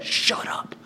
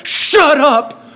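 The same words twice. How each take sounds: First: Hushed, disbelieving whisper; stunned whisper. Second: High, drawn-out exclamation of astonishment; amazed disbelief. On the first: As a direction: whisper it, as if you can't believe it. Stunned reaction to vanished handkerchief. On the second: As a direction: exclaim it high, blown away. Amazed reaction to repeated trick. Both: Retold or imitated.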